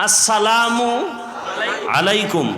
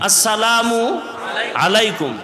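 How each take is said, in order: Both takes have the same delivery.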